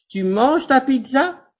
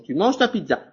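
First: The voice rises at the end. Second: The voice falls at the end.

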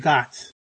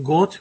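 First: The vowel is an open American A sound. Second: The vowel is a rounded British O sound. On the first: "we say got" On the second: "Instead of saying got"

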